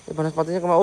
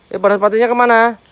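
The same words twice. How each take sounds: First: Said in the usual way. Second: Higher, louder searching call; louder, higher alarmed question. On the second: Real, not acted. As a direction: call out to find it. Searching for fireball spirit.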